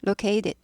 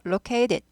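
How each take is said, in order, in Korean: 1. t는 약해져서 부드러운 플랩 소리가 됩니다. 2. t는 약해져서 부드러운 플랩 소리가 됩니다.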